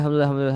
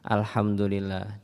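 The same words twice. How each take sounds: First: The word is said quickly and hurriedly. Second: The word is said slowly and carefully. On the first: It is rushed just to be finished. The speaker calls it wrong. "cepat selesai tapi nggak muncul" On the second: It is said properly and brings its reward. The speaker calls it right. "yang pelan-pelan tapi muncul"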